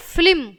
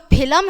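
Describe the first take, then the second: First: फिल्म with l and m joined, no vowel between; corrected फिल्म. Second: फिल्म said in two syllables, "phi-lam"; mispronounced फिल्म. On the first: Teacher giving pupils the correct form, carefully pronounced फिल्म. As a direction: say फिल्म as one syllable, ending in "lm". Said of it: "शुद्ध उच्चारण". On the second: Teacher showing pupils the error, mispronounced फिल्म. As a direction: add a vowel before the m in फिल्म: "philam". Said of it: "वो गलत है". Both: Shown as a demonstration.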